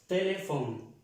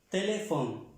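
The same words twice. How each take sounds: No difference in how they are said.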